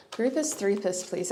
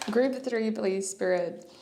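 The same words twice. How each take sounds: First: "Groupus threepus" with -us tacked onto both words; playful mispronunciation. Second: Said in the usual way. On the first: Real, not acted. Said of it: "I usually say groupus threepus". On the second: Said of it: "I usually say groupus threepus, but not today".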